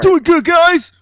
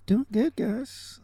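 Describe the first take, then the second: First: It is said with high energy. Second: It is said with low energy.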